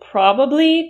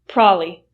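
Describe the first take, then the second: First: It has three syllables with a clear b. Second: It has two syllables with no b sound.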